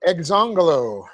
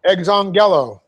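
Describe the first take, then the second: First: Exongelo with the GEL syllable reduced to "guh"; misplaced accent. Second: Exongelo with a full "GEL" syllable; accent exongelo on GEL, with a clear "eh" vowel; corrected accent. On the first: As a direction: say exongelo as eg-ZON-guh-lo, middle "e" swallowed. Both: Shown as a demonstration. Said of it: "get the accent on the right syllable".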